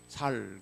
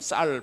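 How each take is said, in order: First: The word starts with a plain s sound. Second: The word starts with a tense s sound. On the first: The speaker calls it wrong. "살 그러고" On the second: The speaker calls it right. "경상도 분들이 참 쌀 발음 안 되고"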